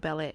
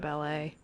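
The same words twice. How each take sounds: First: The word is said in an anglicized, non-French way. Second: The word is said in its usual French-style way.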